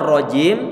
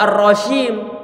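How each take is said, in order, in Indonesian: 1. Konsonan di tengah adalah bunyi 'j' bersuara. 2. Konsonan di tengah adalah bunyi 'sh' tak bersuara.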